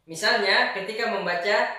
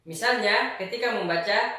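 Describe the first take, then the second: The two takes are said the same way.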